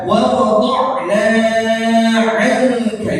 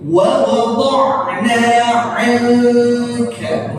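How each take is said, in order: First: "wa wada'na 'anka" with the mad stretched too long; wrong too-long take. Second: "Wa wada'na 'anka" recited slowly, mad held two counts; slow tajwid recitation demo; model recitation. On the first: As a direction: overdo the long vowel on purpose. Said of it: "jangan dibaca kepanjangan". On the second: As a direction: chant it slowly like Quran recitation. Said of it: "Bacanya kurang lebih seperti ini". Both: Shown as a demonstration.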